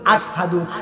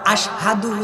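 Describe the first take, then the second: First: The word is said with an 's' sound. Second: The word is said with an 'sh' sound. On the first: The speaker calls it wrong. "Belal পড়তো আসহাদু। কি বলতো?" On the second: The speaker calls it right. "Belal আশহাদু উচ্চারণ করতে পারতো না"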